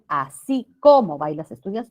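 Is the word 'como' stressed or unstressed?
stressed. The word como is said with emphasis.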